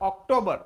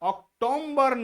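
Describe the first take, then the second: First: No M sound comes before the B. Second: An M sound is inserted before the B. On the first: The speaker calls it right. "નહીં ઓક્ટોબર" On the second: The speaker calls it wrong. "છતાં ઉચ્ચાર કરતા હોય છે ઓક્ટોમ્બર"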